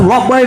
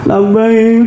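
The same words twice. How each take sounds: First: It is said in a brisk, vigorous voice. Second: It is said in a weeping, tearful voice. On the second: "nangis baca kalimat talbiyah"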